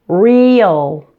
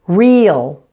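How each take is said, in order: First: The word is said slowly and drawn out. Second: The word is said at a normal pace.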